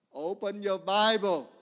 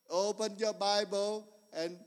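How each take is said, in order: First: Emphatic command. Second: Said in the usual way. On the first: Real, not acted.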